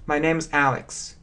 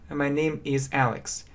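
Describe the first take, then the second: First: Name and is merge into one syllable, name's. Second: The words name and is are said separately.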